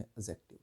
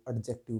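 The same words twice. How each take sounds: First: "एडजेक्टिव" with the D dropped, as a-jective; "एडजेक्टिव" said with a silent D. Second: "एडजेक्टिव" with an audible D before the J; "एडजेक्टिव" pronounced with its D fully sounded. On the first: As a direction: leave out the D in "एडजेक्टिव". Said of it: "एडजेक्टिव क्यों बोलते हैं". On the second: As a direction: say the D in "एडजेक्टिव", as ad-jective. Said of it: "आप इसको एडजेक्टिव क्यों नहीं बोलते हैं". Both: Shown as a demonstration.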